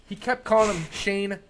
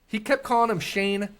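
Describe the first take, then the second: No difference in how they are said.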